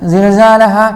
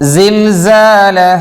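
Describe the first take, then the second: First: The z sound is held without a whistling hiss. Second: The z sound carries a sharp whistling hiss. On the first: The speaker calls it wrong. "സാനൊന്ന് പിടിച്ചു വെച്ചിട്ട് പറയുന്ന ആളുകളുണ്ട്" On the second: The speaker calls it right. "സിൽസാലഹ ശബ്ദം വേണം"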